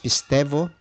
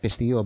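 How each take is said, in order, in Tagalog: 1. May naririnig na tunog v bago ang huling patinig. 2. Walang naririnig na tunog v bago ang huling patinig. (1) "In some pronunciations, the upsilon becomes a V or F" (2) "sometimes they call it pisteo"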